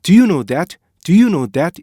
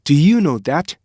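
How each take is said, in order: First: "do you know that" with plain "doo-yoo", no stop; Korean-style reading. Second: "Do you know that" with short "do" into long "ee-yoo"; native rhythm. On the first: Teacher imitating Korean speakers, missing the linking rhythm. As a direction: say each vowel of "do you know that" fully. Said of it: "우리나라 사람들은". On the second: Teacher showing how natives say it, linked. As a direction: link "Do you know that" with stop sounds between words. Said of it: "원어민들은 실제 어떻게 발음하냐면요". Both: Shown as a demonstration.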